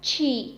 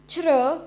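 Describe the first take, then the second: First: The vowel is a clear ee sound. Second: The vowel is a buzzing r-like sound. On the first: The speaker calls it wrong. "and not chi" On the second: The speaker calls it right. "the exceptional case is C H I. Has a pronunciation of chr"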